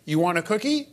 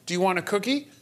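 First: Higher-pitched question, lifted at the end; child echoing parent. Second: Higher-pitched question, rising at the end; lightly voiced adult offering a treat; offering to a child. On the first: Acted. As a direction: parrot the parent's offer. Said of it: "go up to the parent and say". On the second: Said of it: "if you say to the child".

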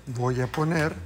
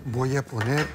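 Both takes have the same delivery.

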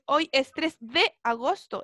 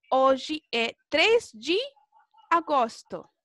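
First: Said in the usual way. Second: Slow Portuguese date, "de" said "dji"; lone DE as "dji". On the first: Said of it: "Se entiende que ese". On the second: Shown as a demonstration. Teacher repeating the rule's example, "de" pronounced "dji". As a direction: say "hoy" as OH-zhi, "de" as "dji". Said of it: "vamos a pronunciarla como G".

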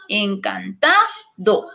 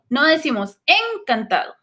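First: Encantado said very slowly, stress on TA; correct stress. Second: Stressing the wrong syllable of encantado; wrong stress shown. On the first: Teacher giving students the correct grave stress. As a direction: stretch encantado with the stress on the second-to-last syllable. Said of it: "es una palabra grave". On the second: Teacher demonstrating a wrong stress on encantado. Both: Shown as a demonstration.

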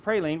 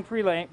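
First: Praline said PRAY-leen, falling; praline, the fix, said PRAY-leen with a falling close; corrected praline. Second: Pralane said with a long A, rhyming with lane; pralane, the slip, said pruh-LANE; mispronounced praline. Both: Shown as a demonstration.

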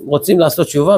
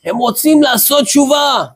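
First: Said in the usual way. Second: High-pitched retold yell; imitated shouting. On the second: Young man tells deaf old rabbi in his ear, imitated shout. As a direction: call it out as if into a hard-of-hearing ear. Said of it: "צועק לו באוזן".

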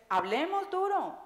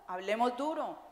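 First: Rallying call, hablemos duro, with a falling hit on duro; emphatic call. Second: Said in the usual way. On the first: Real, not acted. Speaker urges the audience to talk openly, hablemos duro with rising force.

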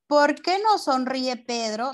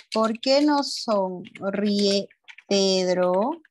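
First: Said in the usual way. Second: Very slow, question broken before Pedro; slow dictation. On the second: Shown as a demonstration. Teacher repeats the question for pupils, very slow dictation. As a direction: stretch each word at writing pace, rising at the end.

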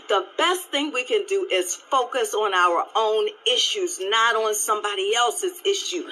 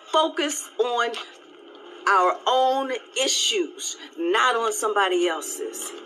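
First: Said in the usual way. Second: Slow it right down to drive it home; slow, emphatic repeat. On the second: Real, not acted. Repeating her point to viewers, slow and emphatic.

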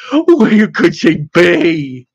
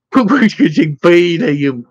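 First: Slow moan. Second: Moaning. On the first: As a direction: stretch out each word of the despairing question. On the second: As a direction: moan it out to your friend, slowly. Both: Acted.

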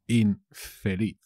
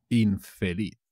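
First: "infeliz" drawn out with a split after "in"; slow, broken up. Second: Said in the usual way. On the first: Shown as a demonstration. Teacher repeating a word for learners, slow and broken up. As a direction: say "infeliz" slowly, in parts.

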